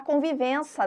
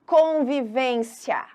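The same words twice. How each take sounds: First: "convivência" said as "convivença", with no i before the final a; swallowed i. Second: "Convivência" slowly, with the faint i before the final a; full ending shown. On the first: Retold or imitated. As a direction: swallow the i in "convivência", ending in plain -ça. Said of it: "tem gente até que fala". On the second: Shown as a demonstration. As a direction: stretch out "Convivência", letting the i glide into the a. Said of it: "ele quase some na hora da fala".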